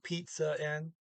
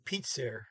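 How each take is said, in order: First: The ending is pronounced fully and separately. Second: The ending is slurred into one short syllable. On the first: This is how it is written. "They don't say pizza N, but it's there in writing" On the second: This is how speakers actually say it. "they take that Z in pizza and they go right into the ser. They say pizzer"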